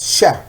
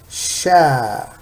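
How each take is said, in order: First: The vowel is short. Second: The vowel is long. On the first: "the fatha is sha" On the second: "Now with long vowel, we have sha"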